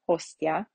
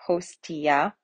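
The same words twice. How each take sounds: First: Said in the usual way. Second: "Hostia" drawn out as hos-tee-ah; T and I separate. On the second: Shown as a demonstration. Teacher demonstrating the exception, "Hostia" with T and I apart. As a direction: separate the T and I in "Hostia", ending on a rise. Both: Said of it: "we have the T and the I separate".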